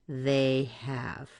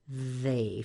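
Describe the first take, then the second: First: The words are separated into two syllables. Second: The words are joined into one syllable. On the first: The speaker calls it wrong. "try to separate those sounds and say they have" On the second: The speaker calls it right. "It needs to be pronounced as they've"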